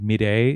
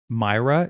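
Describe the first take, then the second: First: The name is said with a Spanish pronunciation. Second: The name is said with an English pronunciation. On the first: The speaker calls it right. "I think Mireille is beautiful" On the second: The speaker calls it wrong. "considered a dowdy English name"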